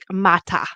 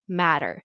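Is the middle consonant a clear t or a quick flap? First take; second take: clear t; flap. First: The middle consonant is a clear t. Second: The middle consonant is a quick flap. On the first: "they they don't have the flat D that Americans have" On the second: "It's like a fast D"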